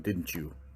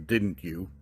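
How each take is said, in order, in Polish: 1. Dźwięk t i 'you' łączy się w 'chew'. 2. Słowo 'you' zachowuje wyraźny dźwięk y. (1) "in informal speech, you would just say, didn't you? The you becomes chew" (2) "Formal speech, you would say"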